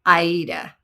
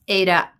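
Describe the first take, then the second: First: The word begins with an 'eye' sound. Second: The word begins with an 'ay' sound. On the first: The speaker calls it right. "like the opera" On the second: The speaker calls it wrong. "my brain has said Ada for a long time"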